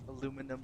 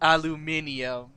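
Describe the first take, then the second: First: It is said in an American accent. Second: It is said in a British accent.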